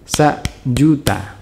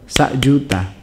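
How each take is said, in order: First: The sound is cut off briefly mid-word. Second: The sound flows through the middle without a break. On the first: The speaker calls it right. "tapi sa juta" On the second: The speaker calls it wrong. "Nggak boleh dibaca sa juta"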